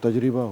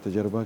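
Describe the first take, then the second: First: It is said tajriba, with i after r. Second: It is said tajraba, with a after r. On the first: This is the standard pronunciation. The speaker calls it right. "जबकि वो तजरिबा होता है" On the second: This is the common everyday pronunciation. The speaker calls it wrong. "या तजरबा कहते हैं"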